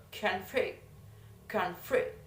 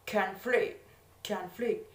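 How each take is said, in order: First: "conflict" as a verb, stress meant on FLICT; teacher's verb "conflict", FLICT stressed. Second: "conflict" as a noun, stress meant on CON; teacher's noun "conflict", CON stressed. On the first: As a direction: demonstrate "conflict" stressed on the second syllable. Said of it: "in the seconds". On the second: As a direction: demonstrate "conflict" stressed on the first syllable. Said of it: "in the first". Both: Shown as a demonstration.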